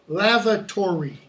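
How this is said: Every syllable is fully pronounced, American style. "We pronounce stressed, uh, even unstressed syllables"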